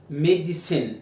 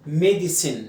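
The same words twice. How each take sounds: The two takes are said the same way.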